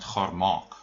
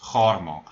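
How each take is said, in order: First: The stress is on the second part. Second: The stress is on the first part. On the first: The two parts stay separate words. The speaker calls it wrong. "not gaar maak" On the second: The two parts form one joined word. The speaker calls it right. "is the emphasis on the first part of the word? If it is, then it joins gaar maak"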